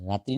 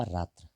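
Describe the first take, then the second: First: रात्रि with a final i sound; wrong form. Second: रात्र ending in "tra", without the i; correct form. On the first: Teacher rejecting a misspelling, wrong form रात्रि with final i. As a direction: end रात्रि on a clear "tri". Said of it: "रात्रि नहीं". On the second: Teacher correcting the spelling, रात्र without final i. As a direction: drop the final i and let रात्र fall away. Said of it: "दिवा रात्र होता है, केवल रात्र". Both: Shown as a demonstration.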